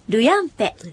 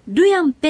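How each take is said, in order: First: The first syllable is low in pitch. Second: The first syllable is high in pitch.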